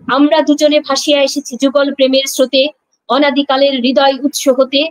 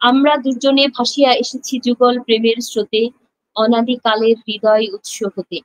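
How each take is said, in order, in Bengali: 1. লাইনটি রুক্ষ, কর্কশ সুরে আবৃত্তি করা হয়েছে। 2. লাইনটি নরম, কোমল সুরে আবৃত্তি করা হয়েছে। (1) "জিনিসটা আসলে কি শ্রুতিমধুর শোনায় না।" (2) "একটা আবেগ, একটা মধুর একটা লাইন।"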